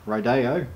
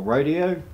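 First: Rodeo said ro-DAY-o, stress in the middle; ro-DAY-o pronunciation. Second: Rodeo said RO-dee-o, stress up front; RO-dee-o pronunciation. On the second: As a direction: stress the first syllable of Rodeo, like "ROH-dee-oh". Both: Shown as a demonstration. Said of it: "however you pronounce it".

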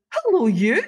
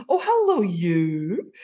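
First: High, loud gushing hello; effusive hello. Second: Effusive hello. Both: Retold or imitated. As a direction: greet her like a long-lost friend. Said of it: "it was so effusive".

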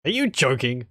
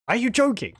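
First: Are you joking? as a plain puzzled question; asked as a question. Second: Are you joking? exclaimed much higher, falling on joking; said as an exclamation. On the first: Player reading the snake's reply, first as a question. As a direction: read it as a genuine question. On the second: Player rereading the snake's reply as an exclamation. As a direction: punch it out as an exclamation. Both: Shown as a demonstration. With an exclamation mark and not a question mark.

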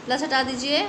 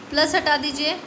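No difference in how they are said.

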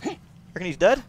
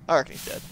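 First: DEAD rising and louder as a question. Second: "dead" settled as a statement, no questioning lift; matter-of-fact answer. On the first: Player checking whether an enemy is dead, questioning rise on DEAD. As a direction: ask it, voice lifting on "dead". Asks, then answers himself. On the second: Player answering his own question, matter-of-fact on DEAD. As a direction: answer yourself, landing plainly on "dead". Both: Real, not acted.

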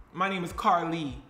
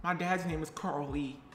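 First: "Carly" run together as a single name; name said as one word. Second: "Carl Lee" as two separate names, quieter; name said as two words. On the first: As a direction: land on "Carly" as one name, not two. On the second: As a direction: split "Carl Lee" into first name and surname. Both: Shown as a demonstration.

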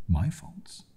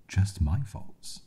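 First: High rising disbelieving question; incredulous. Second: Slow, high, drawn-out disbelief; slow incredulous. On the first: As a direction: throw the word back in disbelief. Incredulous echo of accusation. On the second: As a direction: stretch it out in bitter disbelief. Incredulous echo, slower. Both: Acted.

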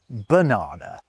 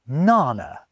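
First: Said in the usual way. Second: "nana", first syllable of banana dropped; "nana" as two syllables, NA-na; child's shortened banana. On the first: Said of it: "when they mean banana". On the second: Shown as a demonstration. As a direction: say "nana" with stress up front. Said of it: "noticed a child say something like".

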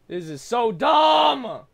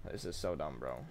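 First: Slow, high furious yell; raging gamer. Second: Low, quiet grumble; muttered. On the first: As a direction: blow up at the game. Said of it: "shouted take". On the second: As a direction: mutter it under your breath. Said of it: "said again shouted". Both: Real, not acted.

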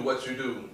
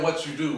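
First: Fading mock echo of "what you do"; imitating her. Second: Higher, louder mock echo of her phrase; imitating her. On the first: Interviewer teasing guest, trailing mock echo. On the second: Interviewer teasing guest, a mild mock echo. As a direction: tease her by repeating "What you do". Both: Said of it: "You keep saying".

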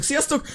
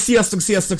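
First: "sziasztok" repeated higher and much softer; a small, high-pitched "sziasztok" afterthought; high soft echo. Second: Said in the usual way. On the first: Shown as a demonstration. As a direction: toss off a high, quiet "sziasztok".

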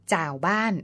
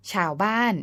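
First: จ่าวบ้าน with unaspirated จ for ช; Lanna spoken pronunciation. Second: Said in the usual way. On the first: Shown as a demonstration. Narrator gives example of Lanna speech, จ่าวบ้าน opening on unaspirated j. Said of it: "ออกเสียงจอจานในภาษาพูดของคนล้านนา". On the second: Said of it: "เขียนชอช้างในภาษาเขียน".

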